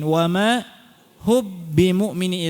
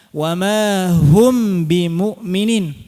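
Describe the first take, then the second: First: The m disappears and merges into a doubled b. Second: The m is pronounced clearly before the b. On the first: "Idgham hilangkan mimnya gimana? Mimnya hilang" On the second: "Idhar bagaimana?"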